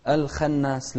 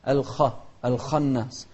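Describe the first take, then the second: First: الخناس with a thin, light خ and a thin vowel, "alkhenas"; thin kha. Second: الخناس with a heavy, emphatic خ and an open "a", "alkhanas"; heavy kha. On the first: Teacher showing the child a wrong, thin خ. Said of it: "الخناس غلط". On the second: Teacher correcting the child with an emphatic خ. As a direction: make the خ in الخناس full and heavy. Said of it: "بس الخاء المفخمة". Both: Shown as a demonstration.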